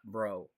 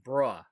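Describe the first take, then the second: First: The syllable ends in an 'oh' vowel. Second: The syllable ends in an 'uh' vowel. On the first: The speaker calls it wrong. "not an O sound" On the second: The speaker calls it right. "you want a U or an A sound"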